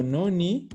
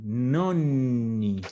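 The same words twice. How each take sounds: First: Nonni said as "noni", with one short N; quick single N in nonni, ending on a rise. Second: Nonni with the middle NN held long; long double N. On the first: Teacher showing the word for ninths, short single N in nonni. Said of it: "Con una N es otra cosa". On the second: Teacher reminding students of the pronunciation, lengthened N in Nonni. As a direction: draw out the double N in Nonni, falling at the end. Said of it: "de la pronunciación". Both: Shown as a demonstration.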